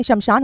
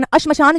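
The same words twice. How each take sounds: First: शमशान starting straight on 'sh'; correct pronunciation. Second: अश्मशान with an extra 'a' in front; wrong pronunciation. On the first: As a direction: say शमशान as "SHAM-shaan". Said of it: "शमशान होता है". (शमशान सीधे 'श' से शुरू) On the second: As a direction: say अश्मशान as "ASH-ma-shaan". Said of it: "जो हम कह देते हैं". (अश्मशान में आगे फ़ालतू 'अ') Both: Shown as a demonstration.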